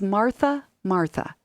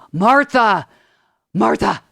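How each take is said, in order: First: It is said in a gentle, loving tone. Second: It is said in an impatient, scolding tone.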